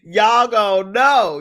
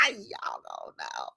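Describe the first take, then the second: First: Drawn-out warning with "know" hit hard; louder, slower, punching "know"; slow, louder emphatic "know". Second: Said in the usual way. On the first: Shown as a demonstration. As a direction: stretch out "Y'all gonna know" and lean on "know".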